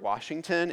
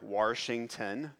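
First: It is said in a neutral, non-Texas accent. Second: It is said in a Texas-style accent. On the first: The speaker calls it right. "When I want to say the word Washington" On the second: The speaker calls it wrong. "it does not sound like the word Washington"

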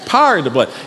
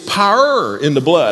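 First: Power is squeezed into a single syllable. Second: Power has about one and a half syllables. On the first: "You can almost imagine a second syllable, but it's not there" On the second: "here in Texas, you have about 1.5 syllables in the word"

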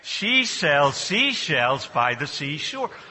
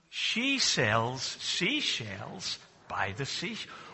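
First: It is said a bit more quickly. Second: It is said at a normal pace.

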